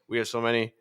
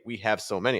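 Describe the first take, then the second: First: The words are reduced and run together. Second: Each word is said separately and clearly. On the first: "I'm just running everything together" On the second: "I didn't say we have so many"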